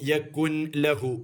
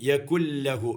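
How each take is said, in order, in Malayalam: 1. lahu-ന് മുമ്പ് n ശബ്ദം വേർതിരിഞ്ഞ് ഉച്ചരിക്കുന്നു. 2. n ശബ്ദം ഇരട്ട l ശബ്ദത്തിൽ ലയിക്കുന്നു. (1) "അത് തെറ്റാണ്" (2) "ഇവിടെ നൂനുണ്ടെങ്കിൽ പോലും അത് ഉച്ചാരണത്തിൽ വരൂല"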